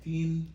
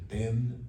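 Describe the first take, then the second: First: The vowel sounds like 'ee'. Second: The vowel sounds like 'eh'. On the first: "Tin, em vez de ten" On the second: "em vez de ten"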